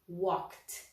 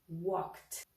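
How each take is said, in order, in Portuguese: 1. A terminação é um som de 't' curto. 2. A terminação é um som de 't' curto.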